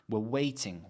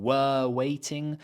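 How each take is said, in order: First: Softer, "we're" shrunk to a short wuh; weak "were". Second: Slow, long full-vowel "were"; strong "were". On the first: Teacher shows the unstressed version, weak "were". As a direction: skim the first word, land on "waiting". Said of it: "using weak forms to unstress words". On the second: Teacher shows what we're not saying, strong "were". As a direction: drag out "were" as a stressed word. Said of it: "We're not saying". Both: Shown as a demonstration.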